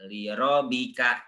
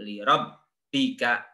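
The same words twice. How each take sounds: First: "rabbika" with a single short ba, the wrong way. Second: "rabbika" with the ba doubled and pressed. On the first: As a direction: say "rabbika" without doubling. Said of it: "bukan li rabbika". (bacaan salah) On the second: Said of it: "tapi li rabbika". (ba bertasydid ditekan) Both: Shown as a demonstration.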